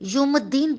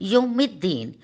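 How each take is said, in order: First: The vowel before the double d is u. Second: The vowel before the double d is i. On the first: The speaker calls it wrong. "पेश लगाकर यौमुद्दीन बना देते हैं, जो कि सरासर गलत है" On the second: The speaker calls it right. "यौमिद्दीन में ज़ेर आता है"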